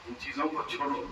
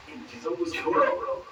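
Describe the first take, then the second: First: Soft echo. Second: Much higher, breathy, pleading; high urgent plea. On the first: Preacher repeating his plea to listeners, softer and lower. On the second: Preacher begging listeners to give it up, high and breathy. Preacher urging, repeated twice. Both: Real, not acted.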